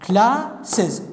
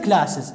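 First: "classes" split into two beats, cla, ses; syllable by syllable. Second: Said in the usual way. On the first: Shown as a demonstration. Teacher counting taps for students, "classes" syllable by syllable. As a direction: say "classes" slowly, pausing between its two syllables. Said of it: "كم نقرة؟". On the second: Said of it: "أنقر وياها".

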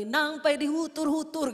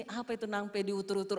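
First: Slow, drawn-out Batak words nangpe dihutur-hutur; Batak prayer phrase. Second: Said in the usual way. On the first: Retold or imitated. Retelling the Samosir crowd's prayer, slow Batak phrase. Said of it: "orang berdoa dan bilang gini". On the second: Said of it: "Terus saya gini".

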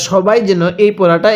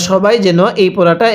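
Both takes have the same delivery.

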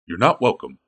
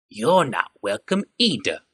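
First: Said in the usual way. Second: Slow snarling goblin; a goblin throwing the words back. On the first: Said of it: "said Vaska simply". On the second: A narrator's reading. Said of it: "said the goblin with a snarl".

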